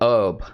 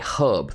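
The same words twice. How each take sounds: First: The word starts without an h sound. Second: The word starts with a clear h sound. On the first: The speaker calls it wrong. "British people do not say herb" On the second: The speaker calls it right. "they say herb. They pronounce the H sound"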